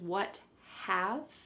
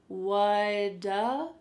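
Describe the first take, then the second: First: The two words are said separately and fully. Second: The two words run together into one. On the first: "This is what have" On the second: "But it sounds like whata"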